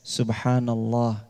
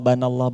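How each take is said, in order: First: The word is said fully and firmly. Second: The word is clipped, dropping its first syllable. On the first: The speaker calls it right. "Ucap subhanallah yang tegas" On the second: The speaker calls it wrong. "Jangan banallah"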